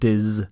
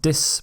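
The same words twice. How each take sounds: First: The syllable is said with a z sound. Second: The syllable is said with an s sound. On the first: The speaker calls it right. "the z sounds dis" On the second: The speaker calls it wrong. "Not dis"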